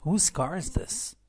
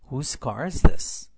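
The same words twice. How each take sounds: First: Slow model reading. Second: Slow, much louder, rising; slow loud model. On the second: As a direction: call it out slowly to the class. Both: Shown as a demonstration. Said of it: "به این جمله توجه کنید".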